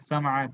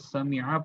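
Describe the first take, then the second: First: The middle vowel is a. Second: The middle vowel is i. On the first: The speaker calls it wrong. "समआ गलत गलत हो जाएगा" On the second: The speaker calls it right. "अरब वाले इस फेल को समिआ पढ़ते हैं"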